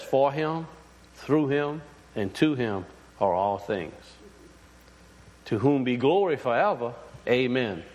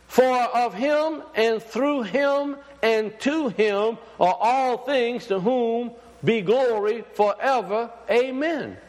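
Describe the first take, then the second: First: Hushed, lower retelling of the scripture. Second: Slow, higher, ringing scripture proclaimed; raised preaching voice, drawn out; preached scripture reading. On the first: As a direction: let the verse settle gently, almost to yourself. Quotes the verse again. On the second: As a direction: proclaim the verse slowly to the congregation. Reads the Romans verse aloud. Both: Acted.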